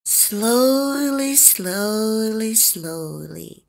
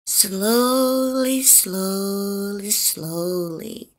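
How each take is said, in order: Both takes have the same delivery.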